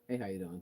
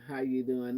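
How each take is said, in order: First: It sounds quick, casual and offhand. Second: It sounds sincere and genuinely interested.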